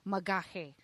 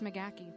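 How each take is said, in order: First: The name is said with a throaty Gaelic h sound. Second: The name is said with a plain American sound. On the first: This is the original form of the name. "it's Gaelic, um, so it should be Magahe" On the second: This is the everyday form the family uses. "it's McGachy"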